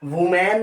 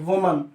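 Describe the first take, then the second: First: The second syllable has a full 'man' vowel. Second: The second syllable has a weak 'mun' vowel. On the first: The speaker calls it wrong. "वुमैन नहीं" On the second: The speaker calls it right. "इसको बोलते हैं दोस्तों वुमन"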